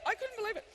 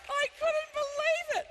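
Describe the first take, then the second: First: Said in the usual way. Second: High, loud, slow through laughter; laughing disbelief. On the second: Real, not acted. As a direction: squeeze it out through the giggles. Still laughing hard.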